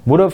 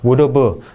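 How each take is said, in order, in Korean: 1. 'have'는 거의 들리지 않게 사라집니다. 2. 'have'는 완전하고 분명하게 발음됩니다. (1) "이런 식으로 쓱쓱쓱쓱 마지막에 사라지면서 긁어주기만 합니다" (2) "이게 아니고"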